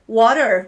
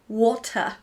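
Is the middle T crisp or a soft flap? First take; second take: flap; crisp. First: The middle T is a soft flap. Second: The middle T is crisply enunciated. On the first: "Americans say" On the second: "English people would say"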